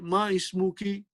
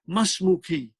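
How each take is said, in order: First: The two words are kept separate, hamza sounded. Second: The two words run together, hamza dropped. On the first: The speaker calls it wrong. "You won't say ma ismuki. No, that is not a good Arabic" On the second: The speaker calls it right. "you will combine this"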